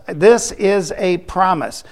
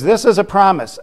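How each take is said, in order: First: "This is a promise" slowly, each word separate; emphatic repetition. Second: Said in the usual way. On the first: Real, not acted. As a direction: weigh every word of "This is a promise". Repeats line slowly for emphasis.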